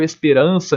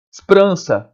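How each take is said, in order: First: Said in the usual way. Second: "Esperança" with the first e dropped, sprança; "Esperança" squeezed to three syllables; clipped sprança. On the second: Shown as a demonstration. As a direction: say "Esperança" fast as s-prança. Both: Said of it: "eu não falo esperança nesse caso".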